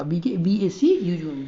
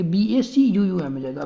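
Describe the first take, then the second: First: "बी ए सी यू यू एम" spelled slowly, letter by letter; teacher redoing the corrected spelling slowly. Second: Said in the usual way. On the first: Shown as a demonstration. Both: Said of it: "अब हम ठीक करेंगे".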